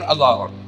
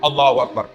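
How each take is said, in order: First: It is said sleepily, with no energy. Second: It is said with far too much energy.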